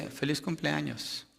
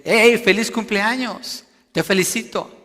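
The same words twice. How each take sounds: First: Said in the usual way. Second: Loud, high emphatic congratulation; exclaimed greeting. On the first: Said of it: "si usted no usa los signos de". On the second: Shown as a demonstration. Preacher showing the congregation how exclamation marks sound, exclaiming. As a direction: call out the birthday wish with exclamation marks. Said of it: "lo dice con signos de exclamación".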